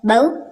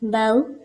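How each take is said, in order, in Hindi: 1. अंतिम स्वर झटके के साथ काटा जाता है। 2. अंतिम स्वर नरमी से और सहजता से बोला जाता है। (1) "तो ये झटका हो जाएगा" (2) "नरमी से अदा करना है इसको"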